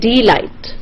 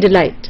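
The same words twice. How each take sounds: First: The stress is on the first syllable. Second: The stress is on the second syllable. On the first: The speaker calls it wrong. "you don't say delight" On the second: The speaker calls it right. "the is hardly stressed, and light, la, is stressed"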